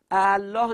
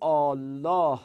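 First: ا الله with a short a before Allah, unmerged; two separate hamzas. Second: الله with a long opening ā, Āllah; merged long vowel. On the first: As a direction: say ا الله as a-Allah, higher and louder. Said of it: "ا الله نمیگیم". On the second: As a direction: stretch the first vowel of الله slowly. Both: Shown as a demonstration.

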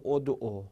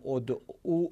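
First: ادعو clipped, final vowel dropped; shortened form. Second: ادعو said in full with the long final "u"; full form with final vowel. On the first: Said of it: "بشه ادعو". (ادعو کوتاه، بدون واو پایانی) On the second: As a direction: pronounce ادعو with its long ending. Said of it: "مثل اینکه بگیم". (تلفظ کامل ادعو با واو بلند پایانی) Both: Shown as a demonstration.

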